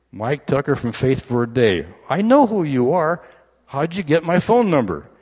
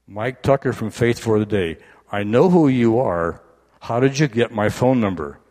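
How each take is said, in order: First: High-pitched, loud disbelief; can't believe who's calling; incredulous. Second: Puzzled, a bit louder; half-awake disbelief at the caller; surprised. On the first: Woken husband amazed at caller. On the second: Woken wife recognising caller. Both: Retold or imitated.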